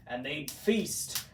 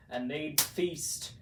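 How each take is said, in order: Both takes have the same delivery.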